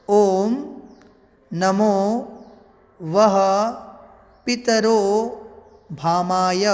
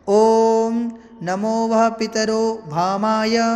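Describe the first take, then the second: First: It is recited slowly, word by word. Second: It is recited at a normal, continuous pace.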